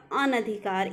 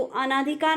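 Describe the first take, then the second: First: अनधिकार with a short "na"; correct pronunciation. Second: अनाधिकार with a long "aa" after the n; wrong pronunciation. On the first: Teacher correcting students, अनधिकार with short "na". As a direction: keep the second vowel short in अनधिकार. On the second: Teacher showing students the error, अनाधिकार with long "naa". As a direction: stretch the second vowel in अनाधिकार to "naa". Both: Shown as a demonstration. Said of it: "अनाधिकार नहीं होता".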